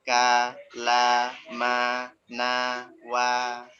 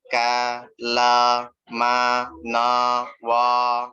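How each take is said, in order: First: "Ka, la, ma, na, wa" with one identical, stable A on every syllable; the correct recitation, every A the same; steady vowels. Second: "Ka, la, ma, na, wa" with each A sounding different and louder; a wrong recitation with unstable A vowels; uneven vowels. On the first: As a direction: recite "Ka, la, ma, na, wa" evenly with a consistent fathah. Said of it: "Harokatnya tuh mesti stabil". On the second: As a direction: recite "Ka, la, ma, na, wa" letting the fathah vowel change on every syllable. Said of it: "jadi seperti ini bacanya". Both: Shown as a demonstration.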